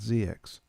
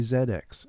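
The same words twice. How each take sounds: First: The letter Z is said as zee. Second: The letter Z is said as zed. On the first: This is how people locally usually say it. "not not Z X" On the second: This is how retro computing enthusiasts say it. "They say Z X"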